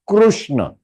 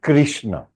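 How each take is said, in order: First: The vowel after kr sounds like u. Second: The vowel after kr sounds like i. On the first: This is the Sanskrit form. The speaker calls it right. "In Sanskritam, it is Krushna" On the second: This is the Hindi, Marathi or Gujarati form. The speaker calls it wrong. "not Krishna"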